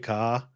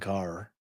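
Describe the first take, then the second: First: The final r sound is dropped. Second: The final r sound is pronounced. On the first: This is how it actually comes out in the speaker's accent. "when you hear me say ka, I don't realize it" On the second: This is how the speaker believes it sounds. "I think I'm saying car"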